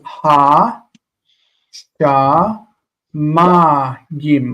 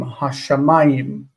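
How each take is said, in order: First: "ha, sha, ma, gim" slowly, each syllable apart. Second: Said in the usual way. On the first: Shown as a demonstration. Teacher showing word stress, separated syllables with "ma" stressed. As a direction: sound out "ha, sha, ma, gim" with weight on "ma". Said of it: "we put stress on any syllable". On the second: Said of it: "we stress this syllable".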